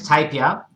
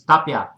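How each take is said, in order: First: The name is said with an Australian pronunciation. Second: The name is said with a Spanish pronunciation. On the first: "Australian's Tapia" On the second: "in Spanish it's Tapia"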